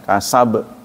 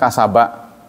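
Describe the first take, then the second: First: The word stops on a bouncing b sound. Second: The word ends with a short a vowel. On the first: "Kita matikan kasab" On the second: "Asalnya kan kasaba"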